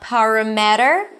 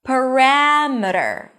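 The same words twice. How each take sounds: First: The stress is not on the second syllable. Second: The stress is on the second syllable. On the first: The speaker calls it wrong. "not parameter" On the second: The speaker calls it right. "The stress falls on the one syllable before the suffix"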